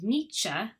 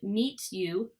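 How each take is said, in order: First: The t and y merge into ch. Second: The t and y stay separate sounds.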